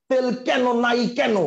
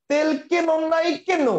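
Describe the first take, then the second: First: Both "কেন" with wide ae, "kæno", slow; both open ae. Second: Both "কেন" with tight e, "keno", slow and high; both close e. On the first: Teacher showing students the other faulty reading, both open ae. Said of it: "দুইটাতেই এ উচ্চারণ দিত". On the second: Teacher showing students a faulty reading, both close e. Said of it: "দুইটাতেই যদি এ উচ্চারণ হইতো". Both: Shown as a demonstration.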